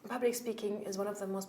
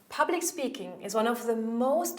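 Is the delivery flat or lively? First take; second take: flat; lively. First: The voice is quiet, flat and monotone. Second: The voice is loud, varied and energetic. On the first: The speaker does not sound convincing. The speaker calls it wrong. "People will go, ooh, I don't believe you" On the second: The speaker draws listeners in. The speaker calls it right. "you will probably feel way more drawn in"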